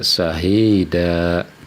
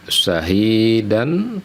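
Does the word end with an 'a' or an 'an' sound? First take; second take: a; an. First: The word ends on a vowel, without n. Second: The word ends with a final n sound. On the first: This is how it is read when stopping at the end. "dibaca syahida" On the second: This is how the word is written.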